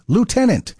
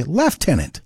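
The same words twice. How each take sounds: First: LIEUTENANT said as loo-TEN-ant; American pronunciation. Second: LIEUTENANT said as lef-TEN-ant; Canadian pronunciation. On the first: Host lists odd English spellings, LIEUTENANT as loo-TEN-ant. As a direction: start LIEUTENANT with loo, no F sound. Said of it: "we say lieutenant". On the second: Host shows what Canada says, LIEUTENANT as lef-TEN-ant. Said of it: "In Canada, we say lieutenant. There's no F there". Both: Shown as a demonstration.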